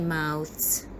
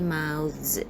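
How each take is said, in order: First: The th sound is voiceless, followed by s. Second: The th sound is voiced, followed by z. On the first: The speaker calls it wrong. "We don't say" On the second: The speaker calls it right. "we have to say"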